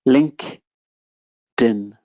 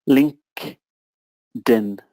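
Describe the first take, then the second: Both takes have the same delivery.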